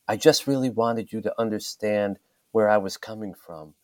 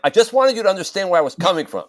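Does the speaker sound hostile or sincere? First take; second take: sincere; hostile. First: It sounds warm and sincere. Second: It sounds cold and hostile. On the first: The writer means it as a genuine explanation. "you might be reading them with your voice saying" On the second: The reader takes it as defensive or resentful. "But they're hearing it like"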